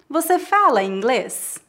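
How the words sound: It is said with question intonation. It asks whether the listener speaks English. "É uma pergunta"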